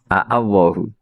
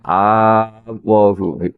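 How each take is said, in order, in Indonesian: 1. Dua hamzah terdengar terpisah di awal. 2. Pembukaannya satu vokal panjang yang menyatu. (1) "dari kata apa? Allahu napa?" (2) "Kemudian diidgham kan jadi apa?"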